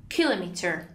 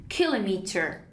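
The two takes are said the same way.

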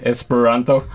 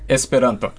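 First: It is said in an English accent. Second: It is said in a standard Esperanto pronunciation. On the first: "English speakers would say Esperanto" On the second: "the closest I can get to the standard pronunciation would be Esperanto"

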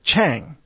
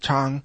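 First: The name is said with an American pronunciation. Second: The name is said with a Chinese pronunciation. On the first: "Americans typically look at that last name and they pronounce it" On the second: "that's more of the Chinese way to pronounce it"

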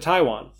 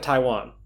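First: The stress falls on an odd syllable. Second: The stress falls on the usual syllable. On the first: The speaker calls it wrong. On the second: The speaker calls it right.

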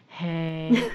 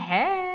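First: The greeting sounds low and sad. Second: The greeting sounds bright and cheerful. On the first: The speaker is feeling down. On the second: The speaker is feeling fine.

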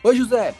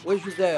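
First: It is said in a warm, lively tone. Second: It is said in a flat, robotic tone.

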